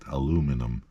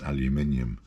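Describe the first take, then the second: First: It is said the American way, four syllables. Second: It is said the British way, five syllables. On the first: "I had a colleague from the U S ... would regularly get aluminum" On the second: "I'd ask her to pronounce aluminium"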